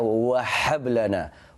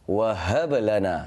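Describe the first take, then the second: First: The h is harsh, like a spicy-food gasp. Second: The h is a plain, light breath. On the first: The speaker calls it wrong. "Wahab itu macam ha pedas" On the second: The speaker calls it right. "tetapi sebenarnya wahablana"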